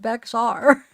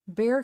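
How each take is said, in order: First: The name is said as it is spelled. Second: The name sounds like the word bear. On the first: This is how non-locals say it from the spelling. The speaker calls it wrong. "people are gonna pronounce it Bexar" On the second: This is how locals say it. The speaker calls it right. "Bear County is how it's pronounced"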